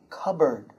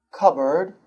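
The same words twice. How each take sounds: First: "Cupboard" said as "KUB-erd" with no P; silent P. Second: "cupboard" said as "KUB-erd"; silent P. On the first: Teacher repeating "Cupboard" without the P. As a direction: keep the P out of "Cupboard". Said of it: "No P". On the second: Teacher showing that "cupboard" drops its P. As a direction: say "cupboard" with no P in the middle. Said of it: "It's pronounced k-a-b-r-d". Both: Shown as a demonstration.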